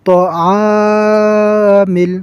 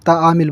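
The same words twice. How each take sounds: First: তাআমিল with the আ held very long and slow; correct long vowel. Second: তাআমিল said short and quick without the long আ; wrong short তাআমিল; common wrong way. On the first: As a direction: draw out তাআমিল properly. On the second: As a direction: clip তাআমিল as people wrongly do. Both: Shown as a demonstration. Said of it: "কিন্তু তা আ হবে না".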